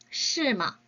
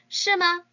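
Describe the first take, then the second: First: The pitch falls at the end. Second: The pitch rises at the end. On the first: It acknowledges that something is so. "밑으로 떨어뜨려 주시는 게 특징이에요" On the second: It asks whether something is really so. "마도 위로 올려줘서 읽어주시는 게 특징이에요"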